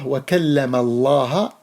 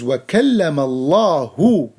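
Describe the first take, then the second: First: The word Allah ends in an 'a' vowel. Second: The word Allah ends in a 'u' vowel. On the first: Musa spoke to Allah. The speaker calls it wrong. "he read the, the name of Allah in this verse with fatha" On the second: Allah spoke to Musa. The speaker calls it right. "The correct reading is وَكَلَّمَ اللَّهُ, the word Allahu with a dhamma"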